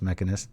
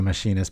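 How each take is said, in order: First: The word begins with a 'meck' sound. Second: The word begins with a 'mash' sound. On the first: The speaker calls it right. "but it's mechanist" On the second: The speaker calls it wrong. "I always say machinist"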